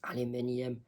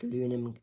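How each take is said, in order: First: The word is said with five syllables. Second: The word is said with four syllables. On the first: This is the British form. "British people and people from other English-speaking countries would say aluminium" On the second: This is the North American form. "Americans and Canadians, can both say aluminum"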